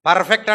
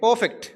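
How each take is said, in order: First: The R sound is clearly pronounced. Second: The R sound is left silent. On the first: The speaker calls it wrong. "పర్ఫెక్ట్ అంటాం కదా" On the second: The speaker calls it right. "అక్కడ ఆర్ silent"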